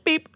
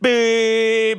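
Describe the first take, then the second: First: It is a short, light, courteous beep. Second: It is a harsh, aggressive beep.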